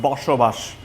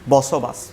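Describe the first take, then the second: First: The hissing sounds are said like 'sh'. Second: The hissing sounds are said like 's'. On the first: "in Bangla we call this one boshobash" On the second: "কলকাতার মানুষজন এটাকে বসবাস বলে"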